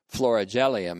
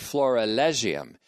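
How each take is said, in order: First: The middle syllables sound like 'ri-gel-i'. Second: The middle syllables sound like 'ri-leg-i'. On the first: The speaker calls it wrong. "I pronounced it wrong before. I said florigelium" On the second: The speaker calls it right. "It's actually florilegium"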